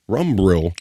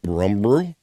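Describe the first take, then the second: First: Rumbrill. said flat and falling, decided; confirming the name Rumbrill; settled statement. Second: Rumbrill? asked with a rising, puzzled tune; querying the odd name Rumbrill?; puzzled question. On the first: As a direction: land Rumbrill. as a firm answer. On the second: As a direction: try out Rumbrill as an unsure question. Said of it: "He's over on Rumbrill saying". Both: Shown as a demonstration.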